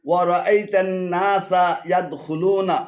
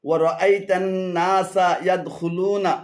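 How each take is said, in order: No difference in how they are said.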